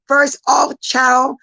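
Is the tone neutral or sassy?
neutral. It is read in a plain, neutral tone.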